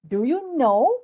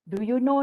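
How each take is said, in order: First: It is said with lively, varied intonation. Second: It is said in a flat, monotonous tone. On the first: The speaker calls it right. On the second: The speaker calls it wrong.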